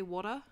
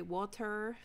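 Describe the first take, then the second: First: Water said with no r at the end, wor-tah; water, Australian style. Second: Water with a rolled-in r, wah-der; water, American style. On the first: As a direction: say water like an Aussie, r dropped. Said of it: "In Australia, we say water". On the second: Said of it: "America, you say water". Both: Shown as a demonstration.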